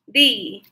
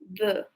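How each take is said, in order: First: The vowel is a long 'ee' sound. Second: The vowel is a short 'uh' sound. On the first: "rhymes with free, the free ... the smile is getting broader" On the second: "It sounds sometimes rhymes with the. Like when we get really irritated"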